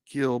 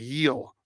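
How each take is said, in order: First: The name starts with a hard G sound. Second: The name starts with an H sound. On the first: "I call it Gill" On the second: "So you say like the Spanish pronunciation"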